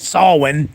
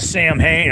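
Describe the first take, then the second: First: It is said as 'sow-win', without an h. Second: It is said as 'sam-hain', with an h. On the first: "however you want to pronounce it" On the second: "Donald Pleasance pronounced it Sam Hain"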